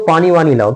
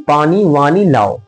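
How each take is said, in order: First: Said in the usual way. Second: Slow teacherly enunciation of the phrase; measured, drawn-out example for students; slow, deliberate repeat. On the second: Shown as a demonstration. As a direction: spell it out slowly, word by word. Teacher repeats example slowly for class.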